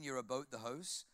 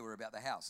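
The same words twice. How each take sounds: First: "about the house" as Canadian "a-boat the hoase"; mock Canadian vowels; Canadian accent. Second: Said in the usual way. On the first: Shown as a demonstration. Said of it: "'Cause in Canadian". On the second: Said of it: "very different down here".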